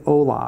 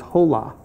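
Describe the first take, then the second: First: It is pronounced the way native speakers say it. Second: It is pronounced as read from the spelling. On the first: The speaker calls it right. "but really it's hola" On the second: The speaker calls it wrong. "I read it as hola"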